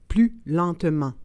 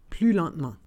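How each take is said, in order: First: It is said slowly and carefully. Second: It is said at normal conversational speed. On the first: "then slowly said in French" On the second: "and then in communicational Canadian French"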